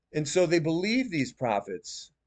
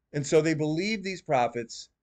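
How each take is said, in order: The two takes are said the same way.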